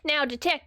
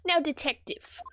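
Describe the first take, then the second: First: Put-on accidental Southern US accent; southern accent slip. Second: Lightly British prosecutor; British accent. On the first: Prosecutor addressing the detective, slipping into Southern accent. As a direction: let the accent drift southern. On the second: Acted. Prosecutor addressing the detective, British accent restored. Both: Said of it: "got really southern there".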